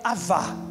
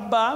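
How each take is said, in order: First: The middle consonant is a V sound. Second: The middle consonant is a B sound. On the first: The speaker calls it right. "mas na verdade é Avá" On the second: The speaker calls it wrong. "A gente fala Abá"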